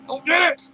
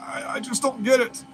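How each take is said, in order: First: Higher-pitched exasperated outburst. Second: Said in the usual way. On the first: Real, not acted. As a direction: burst out in baffled frustration. Exasperated repeat after groaning.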